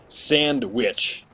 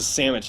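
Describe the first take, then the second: First: The word is said carefully with every sound clear. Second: The word is said quickly with sounds slurred together. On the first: The speaker calls it right. "the traditional of sandwich" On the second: The speaker calls it wrong. "when I say that too fast, it goes to sandwich"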